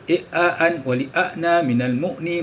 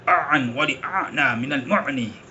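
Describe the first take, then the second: First: The glottal catches are light and clean. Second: The glottal catches are pressed hard in the throat. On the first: The speaker calls it right. "kita sebut begini" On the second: The speaker calls it wrong. "dia tekan hamzah tu macam ain"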